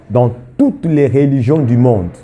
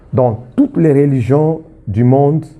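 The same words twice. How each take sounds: No difference in how they are said.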